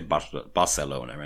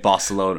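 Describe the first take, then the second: First: The word is said with a Catalan pronunciation. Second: The word is said with an English pronunciation. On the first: "in Catalonia they say Barcelona anyway" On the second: "What point do we stop saying Barcelona"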